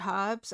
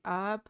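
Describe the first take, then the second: First: It is said with a British pronunciation. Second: It is said with an American pronunciation. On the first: "we say herbs" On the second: "Americans say herb"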